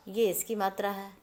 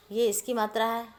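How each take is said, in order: Both takes have the same delivery.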